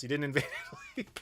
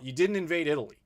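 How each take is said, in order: First: Fast, breaking into laughter mid-line; laughing through it. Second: Said in the usual way. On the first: Acted. Teasing British viewers about Italy, laughing through it. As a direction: repeat the jab while cracking up.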